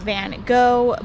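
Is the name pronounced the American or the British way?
American. The name is pronounced in an American manner. "In America we say Van Gogh"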